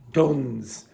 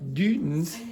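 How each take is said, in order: First: The name is said with plain English sounds. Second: The name is said with French-style sounds. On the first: It sounds ordinary. The speaker calls it right. "the pronunciation is Duns" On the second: It sounds more sophisticated than it is. The speaker calls it wrong. "if you pronounce it in a French way, it sounds more sophisticated"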